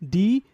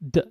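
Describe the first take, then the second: First: The full letter name is said. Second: Only the short consonant sound is made. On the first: The speaker calls it wrong. "pronouncing the whole alphabet first, like D" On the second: The speaker calls it right. "there is a, a consonant sound, and that is D"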